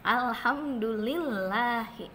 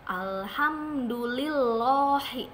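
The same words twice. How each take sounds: First: The 'l' in 'llahi' sounds thin and light. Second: The 'l' in 'llahi' sounds thick and heavy. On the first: The speaker calls it right. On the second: The speaker calls it wrong.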